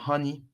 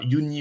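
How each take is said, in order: First: The name is said with English pronunciation. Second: The name is said with French pronunciation. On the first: The speaker calls it right. "J'arrive pas à croire que je viens de faire l'accent" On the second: The speaker calls it wrong. "désolé, mon accent anglais"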